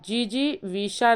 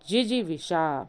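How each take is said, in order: First: The first vowel is long. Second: The first vowel is short. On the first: The speaker calls it wrong. "जीजी विषा नहीं होता है" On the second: The speaker calls it right. "जा में छोटी की मात्रा होगी"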